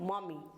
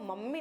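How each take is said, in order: First: The first vowel sounds like 'aw'. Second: The first vowel sounds like 'uh'. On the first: The speaker calls it right. "इसको हम बोलेंगे मॉमी" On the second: The speaker calls it wrong. "मम्मी नहीं बोलेंगे"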